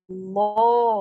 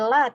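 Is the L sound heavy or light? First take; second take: heavy; light. First: The L is heavy, with rounded lips. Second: The L is light, with an open a. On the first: "tapi tebal... Dibulatin" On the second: "bukan jadi la"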